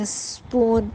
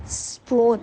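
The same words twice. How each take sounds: First: spoon drawn out slowly, sound by sound; slow phonics demo. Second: Said in the usual way. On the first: Shown as a demonstration. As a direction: stretch spoon for a child. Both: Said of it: "spoon میں دیکھیے کیسے sound ہے".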